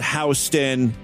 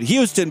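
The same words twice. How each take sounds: First: It is said the New York way. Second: It is said the way it is spelled. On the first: "New Yorkers pronounce it Houston. That's how you're supposed to say it" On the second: "I pronounced it Houston because that's how it's fucking spelled"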